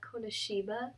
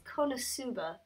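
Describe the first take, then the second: First: The third syllable is pronounced 'shi'. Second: The third syllable is pronounced 'su'. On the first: The speaker calls it wrong. "not Konoshiba" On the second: The speaker calls it right. "So it's Konosuba"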